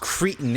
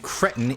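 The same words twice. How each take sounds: First: It is said with an American pronunciation. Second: It is said with a British pronunciation. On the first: "in American English" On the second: "in British English"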